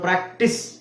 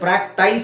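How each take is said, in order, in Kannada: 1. ಕೊನೆಯ ಉಚ್ಚಾರಾಂಶ 'miss' ಗೆ ಪ್ರಾಸ ಆಗುತ್ತೆ. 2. ಕೊನೆಯ ಉಚ್ಚಾರಾಂಶ 'ice' ಗೆ ಪ್ರಾಸ ಆಗುತ್ತೆ. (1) "ಇ ಸೌಂಡ್ ಬರುತ್ತೆ" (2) "ಪ್ರಾಕ್ಟೈಸ್ ಅಂತ ಹೇಳಲ್ಲ ನಾವು"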